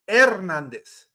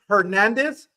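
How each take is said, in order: First: The first sound has no h at all. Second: The first sound is a pronounced h. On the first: The speaker calls it right. "H is always silent" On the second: The speaker calls it wrong. "it's not"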